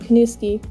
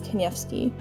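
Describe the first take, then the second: First: The surname is said with American pronunciation. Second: The surname is said with Polish pronunciation. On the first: This is the anglicized form the father used. "My dad always just used the American version" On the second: This is the traditional form used by the extended family. "the Polish pronunciation is"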